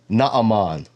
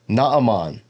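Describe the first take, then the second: First: The name is said with Hebrew pronunciation. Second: The name is said with Hebrew pronunciation.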